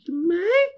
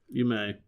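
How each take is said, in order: First: The voice rises high at the end. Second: The voice does not rise at the end. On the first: It is a question. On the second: Permission is given.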